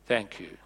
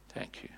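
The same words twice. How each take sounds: First: Said in the usual way. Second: Whispered thank you to the volunteer. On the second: Shown as a demonstration.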